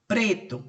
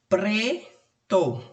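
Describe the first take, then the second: First: Said in the usual way. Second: "preto" split as pre, pause, to; syllable by syllable. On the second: Shown as a demonstration. Teacher showing where the syllable splits, "preto" syllable by syllable. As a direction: break "preto" into two held syllables. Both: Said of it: "quando eu separar a sílaba".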